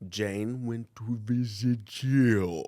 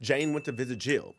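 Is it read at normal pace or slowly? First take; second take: slowly; normal. First: It is read slowly. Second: It is read at a normal pace.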